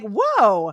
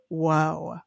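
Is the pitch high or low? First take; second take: high; low. First: It is said with high, excited pitch. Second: It is said with very low pitch.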